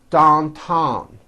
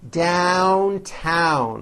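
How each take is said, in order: First: The vowel does not begin with an 'a' sound. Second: The vowel begins with an 'a' sound. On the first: The speaker calls it wrong. "it's not downtown, which you may be saying, especially if you are from China" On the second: The speaker calls it right. "you still attack the vowel with that A sound in hat. Downtown, like that"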